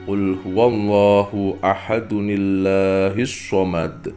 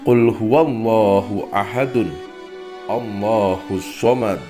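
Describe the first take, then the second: First: The phrases are linked by an added ni sound. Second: The phrases are said separately with a break. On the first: "Jika diwasolkan, maka dibaca"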